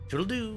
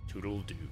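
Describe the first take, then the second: First: The pitch rises on the final syllable. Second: The pitch stays flat on the final syllable. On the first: The speaker calls it right. "He need to do the raised voice at the end of the do" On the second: The speaker calls it wrong. "But just toodle-doo. It just sounds odd"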